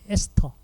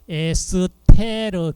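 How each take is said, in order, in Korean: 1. 이 단어는 짧은 'teo' 음절로 끝납니다. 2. 이 단어는 'reu' 음절이 하나 더 붙어서 끝납니다. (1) "영어식 발음으로 한다면" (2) "독일식 발음으로 발음을 하면은"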